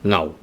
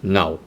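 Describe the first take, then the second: No difference in how they are said.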